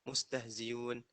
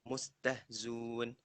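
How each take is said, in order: First: The hamzah is replaced by a clear y. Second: The hamzah is dropped completely. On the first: "ibdaluha ya khalisah" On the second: "hasful hamzah wa dhammu ma qablaha"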